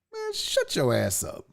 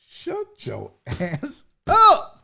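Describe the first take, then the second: First: Low, slow brush-off; dismissive retort. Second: Very slow, word by word, laughing through it; drawn-out retort. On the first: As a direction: wave them off in a lower voice. Brushes someone off, first take. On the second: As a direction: stretch each word and kick up high on UP. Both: Real, not acted.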